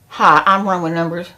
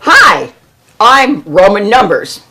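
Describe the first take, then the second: First: It is said flatly, with little energy. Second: It is said strongly, with lively energy.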